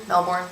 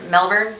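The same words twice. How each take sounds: First: Melbourne as a softer MEL-born; full "or" in Melbourne, said softly; Melbourne, full second syllable. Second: Melbourne as a questioning MEL-burn; short "er" in Melbourne, rising; Melbourne, reduced second syllable. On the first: Trying the other way, Melbourne as MEL-born. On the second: Checking the city's name, Melbourne as MEL-burn. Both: Shown as a demonstration. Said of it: "I think it's Mel-, yeah, you're right".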